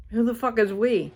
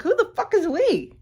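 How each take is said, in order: First: Said in the usual way. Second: High-pitched mocking disbelief; incredulous retort. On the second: Scoffing at the man who says we, high mocking disbelief. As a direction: squeak it out like a scornful challenge.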